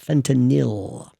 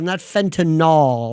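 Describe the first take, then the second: First: The ending rhymes with Benadryl. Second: The ending does not rhyme with Benadryl. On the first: The speaker calls it right. "like Benadryl" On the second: The speaker calls it wrong.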